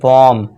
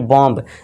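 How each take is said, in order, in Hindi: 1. अंतिम b ध्वनि का उच्चारण नहीं होता। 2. अंतिम b ध्वनि स्पष्ट रूप से बोली जाती है। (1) "बी हमारा साइलेंट हो जाएगा" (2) "ना कि"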